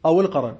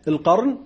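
First: القرن said as al-qaran, an a vowel after the ra; qaran with fatha on ra. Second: القرن said as al-qarn, no vowel after the ra; qarn with silent ra. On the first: Teacher gives students the fatha reading, qaran. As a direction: say القرن with fatha, qa-ran in two syllables. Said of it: "أو القرن بفتح الراء". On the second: Teacher shows students the sukun reading, qarn. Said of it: "تقرأ قرن بسكون الراء". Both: Shown as a demonstration.

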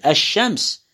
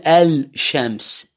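First: الشمس said ash-shams with the shin doubled; lam assimilated. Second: الشمس said al-shams, lam clearly sounded; lam pronounced. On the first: Teacher demonstrating the correct sun-letter reading. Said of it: "بلعت اللام". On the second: Teacher demonstrating the wrong reading of a sun letter. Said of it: "والفظ اللام". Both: Shown as a demonstration.

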